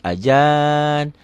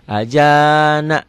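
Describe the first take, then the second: First: The word ends on a consonant. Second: The word ends with an open vowel. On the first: The reading stops here. The speaker calls it right. "Kalau berhenti nggak boleh begitu, harus ajan" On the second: The reading continues into the next letters. The speaker calls it wrong. "Jadi nggak boleh ajana"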